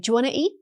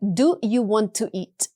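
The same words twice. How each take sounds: First: The words melt together into one sound. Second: Each word is said separately and clearly. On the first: "Americans actually say" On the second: "Instead of"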